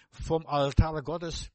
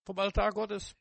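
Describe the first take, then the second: First: "Vom Altar Gottes" drawn out very slowly; slow emphatic answer. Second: "Vom Altar Gottes" repeated higher, stress on "Altar". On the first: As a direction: lay each word down slowly and weightily. („Vom Altar Gottes“ sehr langsam und gewichtig) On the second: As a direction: lift the repeat up, lean on "Altar". („Vom Altar Gottes“ höher wiederholt, Betonung auf „Altar“) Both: Shown as a demonstration. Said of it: "wo die Ströme herkommen?".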